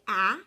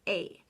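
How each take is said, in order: First: The vowel is short, as in cat. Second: The vowel is long, like the letter name. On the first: The speaker calls it wrong. "it's not going to say A" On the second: The speaker calls it right. "it's going to say A"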